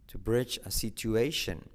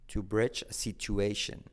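The two takes are said the same way.

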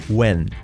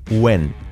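No difference in how they are said.

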